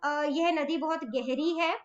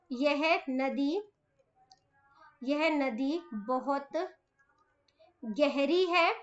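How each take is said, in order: First: Said in the usual way. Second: Slow, word by word, softer, for writing down; slow dictation. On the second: Shown as a demonstration. Teacher dictating a sentence to children, slow and soft. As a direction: spell it out slowly so children can write. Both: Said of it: "छोटे छोटे वाक्य बनाए".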